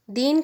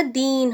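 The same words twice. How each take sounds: First: दिन with a short i; short vowel. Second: दीन with a long, drawn-out ee; long vowel. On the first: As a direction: keep the vowel in दिन brief. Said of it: "दिन में ई की मात्रा". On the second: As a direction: stretch the ee in दीन. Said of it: "बड़ी ई की मात्रा लगा दी". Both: Shown as a demonstration.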